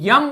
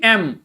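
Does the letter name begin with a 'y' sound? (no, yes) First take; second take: yes; no. First: It begins with a y sound before the vowel. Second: It begins with a plain vowel sound. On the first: The speaker calls it wrong. "अगर आप यम बोलते हैं तो वो गलत है" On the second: The speaker calls it right. "Again it should be एम"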